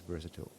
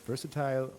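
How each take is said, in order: First: The word is said with an American pronunciation. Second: The word is said with a British pronunciation. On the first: "the U S one is versatile" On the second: "the British one is versatile"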